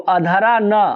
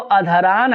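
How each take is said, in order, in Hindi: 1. इसे 'na' से पहले विराम देकर तोड़ा जाता है। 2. इसे एक अखंड शब्द की तरह बोला जाता है।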